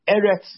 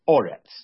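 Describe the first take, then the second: First: The first vowel is an e sound. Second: The first vowel is an o sound. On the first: This is the ordinary form of the word. "sometimes is with two segals" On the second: This is the form used at a major pause in the verse. "on a snachta or a sof posik ... instead it's pronounced Oretz"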